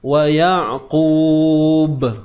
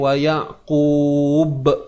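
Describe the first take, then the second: First: The final b bounces lightly with no glottal stop. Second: The final b ends with an added glottal stop. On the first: The speaker calls it right. "Jadi macam mana bunyi dia?" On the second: The speaker calls it wrong. "bunyi hamzah tu kita tak mau"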